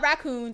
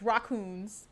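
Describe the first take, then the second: First: The first syllable sounds like 'rack'. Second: The first syllable sounds like 'rock'. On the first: The speaker calls it wrong. "It's not raccoons" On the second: The speaker calls it right. "It's raccoons because it's spelled that way"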